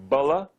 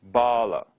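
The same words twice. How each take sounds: First: BALA with a quick short uh in the first syllable; short first vowel. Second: BALA with a long open ah in the first syllable; long first vowel. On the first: Teacher showing students a Sanskrit example, short first vowel. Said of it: "uh does not equal ah". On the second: Teacher showing students a Sanskrit example, long first vowel. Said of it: "pronouncing the short and the long vowels". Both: Shown as a demonstration.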